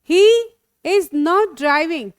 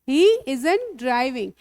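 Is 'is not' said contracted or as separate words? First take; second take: separate; contracted. First: Is and not are said as separate words. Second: Is and not merge into one short word.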